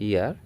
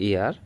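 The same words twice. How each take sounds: No difference in how they are said.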